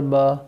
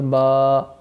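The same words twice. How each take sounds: First: The vowel is short, not drawn out. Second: The vowel is drawn out long. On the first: "और खींचना नहीं है इसको" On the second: "इसको खींच के पढ़ेंगे"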